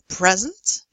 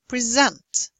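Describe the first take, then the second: First: The stress is on the first syllable. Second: The stress is on the second syllable. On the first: It is a noun. "Nouns often have stress on the first syllable" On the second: It is a verb. "verbs often on the second"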